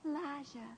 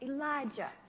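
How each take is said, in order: First: The name is said softly, without force. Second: The name is said loudly, with strong force. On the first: The speaker calls it wrong. "You don't say Elijah" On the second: The speaker calls it right. "you want to say it with emphasis and power"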